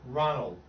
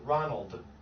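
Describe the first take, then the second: First: The final D is stopped, barely heard. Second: The final D is clearly released.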